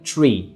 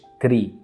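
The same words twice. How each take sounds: First: The t is followed by a ch sound. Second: The t has no ch sound after it. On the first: The speaker calls it right. "بقى فيه صوت تش بعد التي" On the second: The speaker calls it wrong. "ما قلتش tree"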